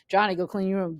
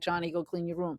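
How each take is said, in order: First: It is said more loudly. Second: It is said softly.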